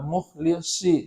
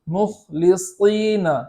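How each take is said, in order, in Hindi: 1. 's' आवाज़ 's' और 'sh' के बीच में होती है। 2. 's' भारी है, जीभ का पिछला हिस्सा ऊपर उठा होता है। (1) "सॉद को मखरज से बदल कर यानी आवाज़ बदल करके पढ़ते हैं ... सीन और शीन के बीच से पढ़ते हैं" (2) "सीन के मखरज से ही पढ़ा जाए और जड़ ज़बान को उठाया जाए"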